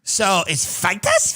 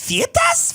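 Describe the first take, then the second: First: Said in the usual way. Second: "Feitas" squeaked much higher in a mock South African accent, rising. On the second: Shown as a demonstration. Podcaster mocking the South African pronunciation of "Feitas", squealing high. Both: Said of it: "you wanna talk about accents that are horrible".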